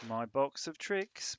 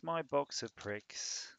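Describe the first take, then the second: First: Slow, drawn-out box of tricks; plain slow. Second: Slow, drawn-out pricks; slow punchline. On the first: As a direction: set up the joke slowly. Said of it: "wordplay demo, slow". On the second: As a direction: land the rude swap slowly. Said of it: "wordplay swap, slow". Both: Shown as a demonstration.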